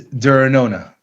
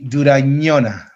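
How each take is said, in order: First: The surname is said in a simplified, plainer form. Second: The surname is said in its fuller original form. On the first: "the easy version" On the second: "The difficult version"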